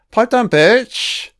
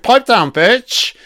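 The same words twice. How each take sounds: First: "Pipe down, bitch" drawn out slowly, higher; slow, higher mock-tough "Pipe down, bitch"; slow mock tough guy. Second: Higher mock-tough "Pipe down, bitch" at normal speed; quick, higher jeering "Pipe down, bitch"; mock tough guy. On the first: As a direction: stretch every word of "Pipe down, bitch" slowly. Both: Mocking a TV character.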